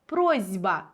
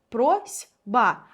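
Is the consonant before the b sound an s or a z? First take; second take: z; s. First: The consonant before b is a voiced z. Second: The consonant before b is a voiceless s. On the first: "Чуємо звук «з»" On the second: "це слово пишеться з літерою С"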